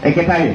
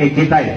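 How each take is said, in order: The two takes are said the same way.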